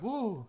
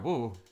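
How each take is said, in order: First: The whoa sounds excited and thrilled. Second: The whoa sounds unexcited, like worry or alarm.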